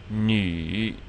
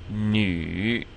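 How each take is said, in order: The two takes are said the same way.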